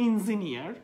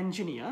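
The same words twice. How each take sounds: First: "engineer" as in-zi-ni-ar; "engineer" with in- at the start and final r; wrong pronunciation. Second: "angenia" as en-ji-NI-a; correct pronunciation. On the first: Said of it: "this is not". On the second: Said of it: "this is called angenia". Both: Shown as a demonstration.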